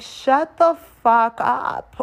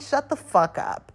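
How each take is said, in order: First: Very slow, higher, drawn-out put-down; exasperated retort. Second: Slow, higher, dismissive put-down; annoyed retort. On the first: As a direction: stretch every word, totally done with him. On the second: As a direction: drag it out, fed up with him. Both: Retold or imitated. Snapping at drunk date.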